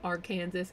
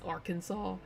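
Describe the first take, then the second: First: The name is pronounced the way non-Americans say it. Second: The name is pronounced the way Americans say it. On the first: The speaker calls it wrong. "They say Arkansas" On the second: The speaker calls it right. "it's Arkansas"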